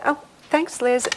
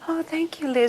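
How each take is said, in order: First: It is said in a normal voice. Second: It is said in a very high, childish voice.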